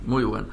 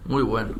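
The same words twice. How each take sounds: The two takes are said the same way.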